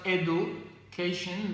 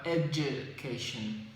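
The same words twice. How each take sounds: First: The middle consonant is not a j sound. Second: The middle consonant is a j sound. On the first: The speaker calls it wrong. "it's not education" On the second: The speaker calls it right. "but education. The sound that you use when you say jam"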